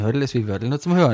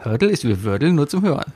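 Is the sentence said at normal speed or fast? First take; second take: fast; normal. First: It is said quickly. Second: It is said at a normal pace.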